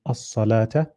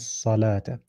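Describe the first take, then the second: First: The word begins with a pronounced 'a' vowel. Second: The initial 'a' vowel is dropped entirely. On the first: The word is read on its own. "If we're reading it alone here, alif and lam, we say a" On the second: The word is joined to the word before it. "if we're joining, then all these become silent"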